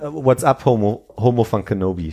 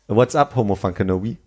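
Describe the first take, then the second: First: The line is delivered stiffly and haltingly. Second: The line is delivered loosely and casually.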